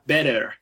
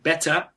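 First: A soft tapped t and a sounded final r. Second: A crisp t and no final r sound. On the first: "in American English you have better. So you can see you pronounce also the last R" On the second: "So in British English you have better"

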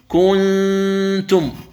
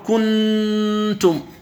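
First: The n is hidden, only a nasal hum remains. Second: The n is pressed fully with the tongue. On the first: The speaker calls it right. "توافق الإظهار من جهة بقاء الغنة فقط" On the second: The speaker calls it wrong. "يعني يضغط على مخرج النون، وهذا خطأ في الإخفاء"

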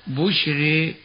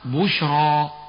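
First: The final vowel leans toward e, r light. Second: The final vowel is a plain open a.

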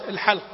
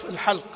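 No difference in how they are said.

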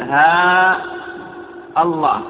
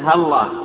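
First: The opening ha syllable is drawn out long. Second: The opening ha syllable is said short. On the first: "أن تمد الهاء" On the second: "هاء مفردة قبل لفظ الجلالة"

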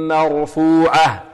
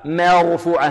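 First: The vowel after the m is fully open. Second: The vowel after the m is reduced and narrow. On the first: The speaker calls it right. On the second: The speaker calls it wrong.

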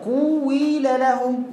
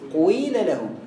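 First: The first vowel has a full 'w' sound. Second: The first vowel has only a brief lip-rounding.

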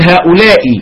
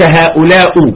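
First: The word ends with a short i vowel. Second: The word ends with a short u vowel. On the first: The speaker calls it right. "تقول هؤلاء" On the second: The speaker calls it wrong. "وليس هؤلاء"

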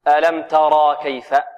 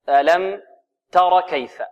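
First: The vowel after r is lengthened. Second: The vowel after r is short. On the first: The speaker calls it wrong. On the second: The speaker calls it right.

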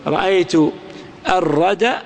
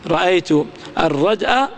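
No difference in how they are said.

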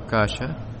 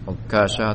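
First: The k sound is single and short. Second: The k sound is doubled and held longer. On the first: "boleh pula di tidak ditasydid" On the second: "ditasydid huruf kaf"

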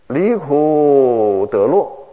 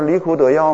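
First: The last syllable is pronounced lè. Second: The last syllable is pronounced yào. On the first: The speaker calls it right. "我们常说的离苦得乐" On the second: The speaker calls it wrong. "能够说离苦得药吗？"

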